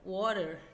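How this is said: It is said in an American accent. "water do inglês americano"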